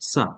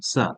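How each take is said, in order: Both takes have the same delivery.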